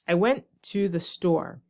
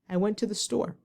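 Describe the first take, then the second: First: Each word is said separately with pauses. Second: The words flow together as one phrase. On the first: The speaker calls it wrong. "instead of saying this" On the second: The speaker calls it right. "try to say"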